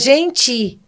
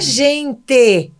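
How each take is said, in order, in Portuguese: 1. A palavra gente é dita com som do português brasileiro. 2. A palavra gente é dita com som de estilo italiano. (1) "é gente" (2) "não é gente"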